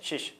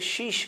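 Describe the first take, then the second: First: The vowel is short. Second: The vowel is stretched long.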